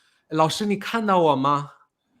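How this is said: It is said in a happy, cheerful tone. "很高兴地说"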